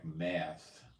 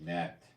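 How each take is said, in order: First: The word ends with a soft th sound. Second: The word ends with a sharp t sound. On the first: "there's also no th sound like math" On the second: "It would be met. They have a sharp T where you have th"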